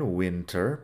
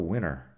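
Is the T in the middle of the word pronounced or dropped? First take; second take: pronounced; dropped. First: The T in the middle is clearly pronounced. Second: The T in the middle is dropped. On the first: "Si lo digo bien" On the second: "si lo digo con la dropped T"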